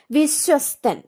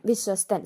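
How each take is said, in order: First: വിശ്വസ്തൻ called out higher and louder; announced word. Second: Said in the usual way. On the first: Shown as a demonstration. Teacher announcing the word to students, raised and loud. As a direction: call out വിശ്വസ്തൻ loudly. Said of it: "സായും തായും കൂടെയാണ്". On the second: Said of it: "എങ്ങനെയാണെന്ന് ഓർത്തോണം".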